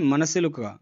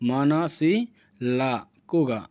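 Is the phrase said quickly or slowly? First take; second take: quickly; slowly. First: It is said quickly as one short run. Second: It is said slowly with the syllables spaced apart. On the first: "short যদি বলা হয়" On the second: "উচ্চারণটা ফাঁকা ফাঁকা করে দিয়েছি"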